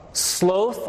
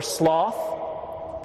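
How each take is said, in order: First: "Sloth" with a long o, as in "both"; long-o pronunciation. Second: "sloth" with an open "aw" vowel, as in "cloth"; short-o pronunciation. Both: Shown as a demonstration. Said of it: "pronounced both ways".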